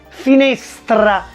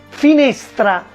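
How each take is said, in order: Both takes have the same delivery.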